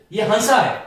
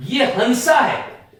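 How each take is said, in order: First: Said in the usual way. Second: हंसा spoken slowly with the nasal vowel; slow nasal demo. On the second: Shown as a demonstration. Teacher contrasting the spellings of हंसा for students, spoken slowly. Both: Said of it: "हंसा नहीं, हंसा".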